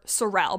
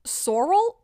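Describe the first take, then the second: First: Sorel said suh-RELL, stress at the end; second-syllable stress. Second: Sorel said SORE-ul, stress up front; first-syllable stress. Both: Shown as a demonstration. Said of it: "I don't know how to pronounce it".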